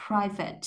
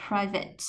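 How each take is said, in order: Both takes have the same delivery.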